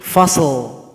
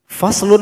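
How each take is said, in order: First: The word ends on a voiced l sound. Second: The word ends with a full vowel ending. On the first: The reader stops on this word. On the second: The reading continues without stopping.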